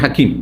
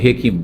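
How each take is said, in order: First: The first vowel is pronounced as 'a'. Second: The first vowel is pronounced as 'e'. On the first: The speaker calls it right. "শব্দটি হাকিম" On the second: The speaker calls it wrong. "একটু বাঁকা করে বলি হেকিম বলি"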